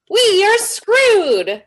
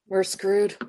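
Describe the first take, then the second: First: It is said in a cheerful, upbeat tone. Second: It is said in a gloomy, defeated tone.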